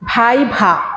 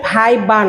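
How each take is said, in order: First: The second syllable starts with an aspirated bh. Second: The second syllable starts with a plain b. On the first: The speaker calls it right. "দুইটাই ভ" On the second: The speaker calls it wrong. "বেশিরভাগ স্টুডেন্টরা বলে ভাই বা, আসলে ভাই বা নয়"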